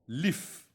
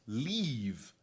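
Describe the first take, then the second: First: The word ends with a voiceless f sound. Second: The word ends with a voiced v sound. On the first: The speaker calls it wrong. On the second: The speaker calls it right.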